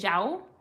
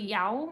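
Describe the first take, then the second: First: The name begins with a zh sound. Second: The name begins with a y sound.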